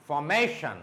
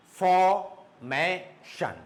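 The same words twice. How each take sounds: First: Formation joined up, MA raised, then falling; stress on MA. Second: Formation very slowly in three beats, for, may, shun; long pauses inside Formation; syllable by syllable. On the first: Teacher joining the word up, stress on MA. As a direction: lift the MA in formation at normal speed. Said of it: "it should go up". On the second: Teacher sounding out Formation for students, syllable by syllable. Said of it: "three syllables". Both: Shown as a demonstration.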